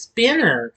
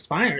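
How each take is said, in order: First: The first syllable sounds like 'spin'. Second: The first syllable sounds like 'spine'. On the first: The speaker calls it right. "It's Spinner" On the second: The speaker calls it wrong. "I mispronounce him Spiner"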